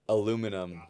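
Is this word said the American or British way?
American. It is said the American way, four syllables. "Here's the craziest one to me"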